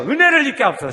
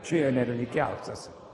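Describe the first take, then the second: First: High and loud, 은혜를 hit hard; louder second take. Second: Said in the usual way. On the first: Shown as a demonstration. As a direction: say it again with more force. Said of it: "다시요". (다시 더 크게 외치기) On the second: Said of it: "시작".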